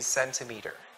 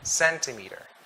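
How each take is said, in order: First: The stress is on the first syllable. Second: The stress is on the first syllable.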